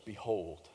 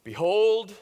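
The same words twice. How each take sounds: First: A soft, hushed Behold, barely above a breath. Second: Behold rings out loud and lifted, a proclamation; proclaiming behold. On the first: Preacher voicing John at the river, softly hushed. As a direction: draw them in quietly on Behold. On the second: Preacher voicing John announcing Jesus, a loud proclamation. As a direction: throw Behold out to the whole crowd. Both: Acted. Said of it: "And he declares".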